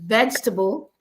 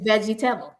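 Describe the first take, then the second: First: It is said in a standard accent. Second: It is said in a Caribbean accent.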